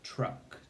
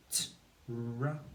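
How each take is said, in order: First: Said in the usual way. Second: Truck stretched sound by sound. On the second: Shown as a demonstration. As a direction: segment truck into separate, drawn-out sounds. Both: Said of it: "You need to say the sounds".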